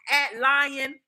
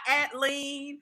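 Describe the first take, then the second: First: Said as one word ending in lion. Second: Said as one word ending in lean. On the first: "not at lion" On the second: "not at lean"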